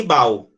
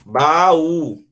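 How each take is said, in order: First: "bau" as one syllable, U gliding off A; wrong joined vowels. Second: "Baú" as ba-Ú, stress on the U; separated vowels. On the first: Teacher shows reading without accent, wrong diphthong in "bau". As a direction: say "bau" in one beat, stressed on the A. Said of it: "se eu não colocar aqui". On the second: Teacher models the hiatus for the class, separated vowels in "Baú". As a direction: say "Baú" in two syllables, A apart from U. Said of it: "Não separou?". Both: Shown as a demonstration.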